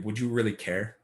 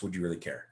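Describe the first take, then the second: First: Said in the usual way. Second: Would you really care asked lower and softer, would stressed; quiet pointed repeat. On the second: Shown as a demonstration. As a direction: drop it down, lean on would. Rhetorical question asked twice.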